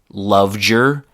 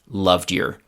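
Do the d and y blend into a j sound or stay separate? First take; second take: blend; separate. First: The d and y blend into a j sound. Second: The d and y are said separately. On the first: "the chewing gum pronunciation" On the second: "the more classroom-like pronunciation"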